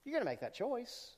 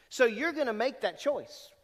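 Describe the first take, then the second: First: Softer, higher, almost confiding; soft repeat. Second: Raised, louder, pressing the point; firm emphasis. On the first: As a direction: say it gently, a quiet nudge. Preacher repeats line softer. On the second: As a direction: drive home the choice. Preacher repeats line to congregation. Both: Shown as a demonstration.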